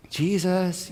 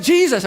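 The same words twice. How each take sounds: First: Soft, tender call of his name; gentle wake-up call. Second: Loud, high shout over the storm; yelled name. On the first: Gently waking a sleeping child, soft call. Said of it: "they didn't wake him up like". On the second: Disciples yelling over the storm to wake Jesus, loud shout. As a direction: yell his name over the roaring wind. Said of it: "It's like". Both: Retold or imitated.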